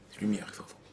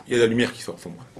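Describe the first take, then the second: First: Whispered, much softer, full of wonder; awed whisper. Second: Said in the usual way. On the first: A narrator's reading. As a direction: hush them with the miracle.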